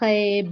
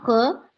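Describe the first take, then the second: First: The letter ends in an e vowel. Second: The letter ends in a short a vowel. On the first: The letter's name is said. The speaker calls it wrong. "मैंने ऐसे नहीं कहा खे" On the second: The letter's sound is said. The speaker calls it right. "मैंने क्या कहा? ख"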